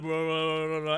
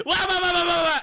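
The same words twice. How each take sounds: First: Low, subdued wah-wah mumbling; partner's low drone. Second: High, loud wah-wah yapping; own loud squawk. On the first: Imitating the straight-man partner, low droning wahs. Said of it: "and he's like". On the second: Showing the duo's classic dynamic, high loud squawk. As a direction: yap it high and loud, caricaturing yourself. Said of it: "'cause I'm like". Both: Retold or imitated.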